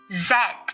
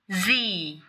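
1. Chữ Z được phát âm theo giọng Anh Anh. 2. Chữ Z được phát âm theo giọng Anh Mỹ. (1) "phát âm theo cách Anh Anh" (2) "theo cách nói Anh Mỹ"

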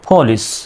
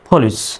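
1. প্রথম p টি শ্বাসযুক্ত, f-এর কাছাকাছি। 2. প্রথম p টি শ্বাসযুক্ত, f-এর কাছাকাছি।

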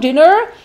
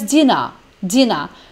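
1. Tem sotaque americano, com o R final. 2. Tem sotaque britânico, sem o R final. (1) "Americanos falam mais dinner, né? Dinner, daquela encaipirada no final" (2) "E britânica mais dinner"

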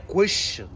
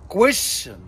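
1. الصوت الساكن في الوسط هو صوت 'sh'. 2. الصوت الساكن في الوسط هو صوت 'sh'.

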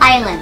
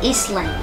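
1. คำว่า island ไม่ออกเสียง s 2. คำว่า island ออกเสียง s (1) "ไม่ออกเสียง s" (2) "ไม่ใช่"

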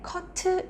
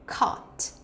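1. 첫 소리는 힘을 빼고 약하게 나죠. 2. 첫 소리는 힘을 주고 강하게 나죠. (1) "caught 이거보다는" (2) "앞에 힘을 주세요"

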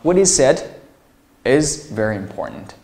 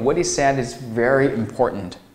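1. "said"之后有一个停顿。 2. 句子一口气说下来，中间没有停顿。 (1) "这里划分啊" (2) "当然你可以说成What he said is very important"

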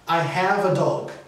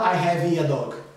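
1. "Have" termina limpo na consoante final. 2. Uma vogal extra segue a consoante de "have". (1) "O verbo é have" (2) "Você não fala I have a dog"

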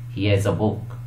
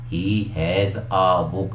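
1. 'He has' को 'he's' में संक्षिप्त किया जाता है। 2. 'He has' पूरा बोला जाता है, संक्षिप्त नहीं।

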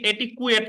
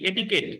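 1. মাঝখানে 'kw' ধ্বনি আছে। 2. মাঝখানে সাধারণ 'k' ধ্বনি আছে। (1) "এটিকুয়েট না" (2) "এটিকেট উচ্চারণ করবেন এটিকেট"

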